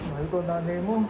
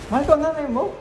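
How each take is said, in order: First: The line is said in a sad tone. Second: The line is said in a surprised tone.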